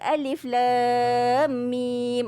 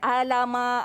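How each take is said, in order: First: Each letter is said by its full name. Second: The letters are blended into one short word. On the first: The speaker calls it right. "betul tak baca alif lam mim?" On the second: The speaker calls it wrong. "bukan alama. Ah, kan dah salah macam tu ya"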